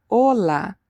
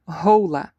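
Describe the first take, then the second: First: Hola said with a silent H and pure O, o-la; correct Spanish hola. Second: Hola said with an English H and "oh" vowel, hoh-la; wrong English-style hola. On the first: Teacher showing students the correct way, Hola with silent H. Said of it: "the H is always silent". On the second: Teacher showing students the mistake, hola with a spoken H. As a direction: pronounce hola the wrong way, sounding the H. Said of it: "Never say hola". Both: Shown as a demonstration.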